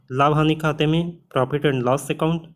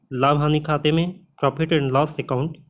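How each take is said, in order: The two takes are said the same way.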